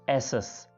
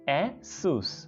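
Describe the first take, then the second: First: The second syllable has a short vowel, 'sus'. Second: The second syllable has a long vowel, 'soos'. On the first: The speaker calls it wrong. "बहुत से लोग ऐसे बोलते हैं एसस" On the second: The speaker calls it right. "इसका नाम है एसूस"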